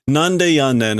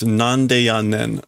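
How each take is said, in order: First: A light Osaka-ben quip at normal speed; Osaka-ben retort. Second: Drawn out word by word; slowly spelling out nande yannen; slow sounded-out reading. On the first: Retold or imitated. The Osaka comedian fires back with a light Osaka-ben retort. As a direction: toss off the Osaka-ben nande yannen as a retort. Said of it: "this is Osaka Ben". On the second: Shown as a demonstration. Working through the phrase, said slowly. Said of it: "a little bit with".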